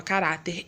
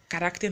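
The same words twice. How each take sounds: First: Said in the usual way. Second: "caráter" with an extra k sound, as "carácter"; mispronounced caráter. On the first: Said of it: "desculpa, caráter irônico". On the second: Real, not acted. Teacher slips while listing traits of crônicas, "caráter" mispronounced as "carácter". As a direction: say "caráter" wrongly, sounding a k before the t. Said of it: "caráter não, desculpa".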